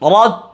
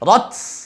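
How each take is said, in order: First: The final t ends with light breath, no hiss. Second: The final t ends with a hissing s-like sound. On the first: The speaker calls it right. "এটা হলো হামস" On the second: The speaker calls it wrong. "এটা করা যাবে না"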